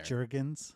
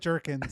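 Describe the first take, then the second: First: The middle consonant is a G sound. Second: The middle consonant is a K sound. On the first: The speaker calls it wrong. "Like Jergens lotion" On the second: The speaker calls it right. "Jerk, like jerk, right?"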